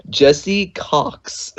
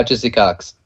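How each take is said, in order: First: Jesse Cox slowly, with a clear "eh" in Jesse; careful correction. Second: Jesse Cox run together, first vowel sliding toward "Jizzy"; said fast. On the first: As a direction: enunciate Jesse Cox word by word after a laugh. Correcting the misheard name after teasing. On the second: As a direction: say Jesse Cox quickly and carelessly, almost "Jizzy". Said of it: "you said it kinda fast". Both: Real, not acted.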